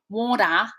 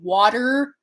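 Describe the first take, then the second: First: It ends in a nasalized vowel without r. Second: It ends with a clear r sound. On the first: "they also have nasalized vowels kind of instead of R's" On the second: "instead of water"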